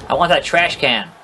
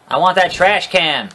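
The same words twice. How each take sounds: The two takes are said the same way.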